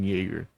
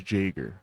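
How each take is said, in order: First: The name starts without an English J sound. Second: The name starts with an English J sound. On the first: The speaker calls it wrong. "I keep saying Jaeger" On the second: The speaker calls it right. "I think you pronounce the J"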